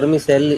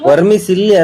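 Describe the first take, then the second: First: The word ends with the syllables 'selli'. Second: The word ends with the syllables 'silli'. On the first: The speaker calls it right. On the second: The speaker calls it wrong. "ವರ್ಮಿಸಿಲ್ಲಿ ಅಲ್ಲ ಅದು"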